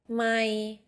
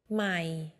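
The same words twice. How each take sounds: First: The word is said on a level middle tone. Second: The word is said on a low tone. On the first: It means mile. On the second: It means new.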